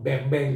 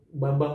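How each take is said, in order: First: It is said with an English pronunciation. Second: It is said with an Indonesian pronunciation. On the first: The speaker calls it wrong. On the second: The speaker calls it right.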